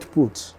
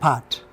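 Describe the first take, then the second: First: The vowel sounds like the one in 'foot'. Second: The vowel sounds like the one in 'cart'. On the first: The speaker calls it wrong. "not put" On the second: The speaker calls it right. "It is pronounced as part"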